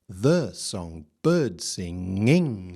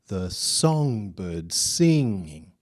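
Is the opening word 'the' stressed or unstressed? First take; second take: stressed; unstressed. First: The opening word 'the' carries strong stress. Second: The opening word 'the' is weak and unstressed. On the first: The speaker calls it wrong. "Let's assume it's strong" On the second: The speaker calls it right. "Let's try it the other way around"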